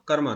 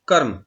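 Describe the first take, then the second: First: The word ends with a final 'a' vowel. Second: The word ends on the consonant 'm'. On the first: The speaker calls it wrong. "कर्मा कर्मा कर्मा कर्मा नहीं" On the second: The speaker calls it right.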